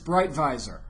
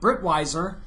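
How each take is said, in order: First: The surname is read with a German pronunciation. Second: The surname is read with an English pronunciation.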